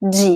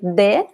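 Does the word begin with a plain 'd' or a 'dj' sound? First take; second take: dj; d. First: It begins with a soft 'dj' sound. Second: It begins with a plain hard 'd' sound. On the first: This is how most speakers say it. "the most common pronunciation" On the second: This is how it is said only in some regions. "in some places in Brazil, people say de"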